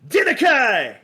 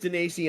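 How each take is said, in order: First: The name ends with a hard 'kai' sound. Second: The name ends with a soft 'see' sound. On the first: This is a mispronunciation of the name. The speaker calls it wrong. "that pronunciation of my last name" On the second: This is the real name. The speaker calls it right. "my name is Denasi"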